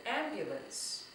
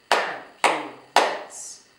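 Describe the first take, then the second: First: Said in the usual way. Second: AMBULANCE slowly split into three beats, am - bu - lance; syllable by syllable. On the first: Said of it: "the word I used earlier". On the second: Shown as a demonstration. Teacher doing a word with clapping, AMBULANCE in three separate beats. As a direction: clap out AMBULANCE, one slow syllable per clap. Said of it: "do ambulance with clapping".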